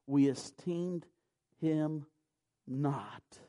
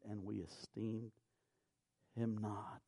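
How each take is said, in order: First: We said slow and pressed, pronoun pointed out; stress on We. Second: Said in the usual way. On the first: Shown as a demonstration. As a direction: lean on the word We, slowly. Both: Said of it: "if you'll notice the pronouns".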